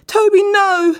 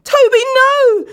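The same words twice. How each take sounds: First: High, loud screaming plea; much higher, louder terrified begging. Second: Slow, very high and loud scream; much higher, louder, slow scream. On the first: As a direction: scream for your life. Dan begs again. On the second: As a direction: scream in terror. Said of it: "Dan screamed out". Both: A narrator's reading.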